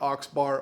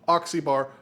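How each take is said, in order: First: The name is said with two syllables. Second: The name is said with three syllables. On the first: The speaker calls it wrong. "not Oxbar" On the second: The speaker calls it right. "It's actually pronounced Ox-E-Bar"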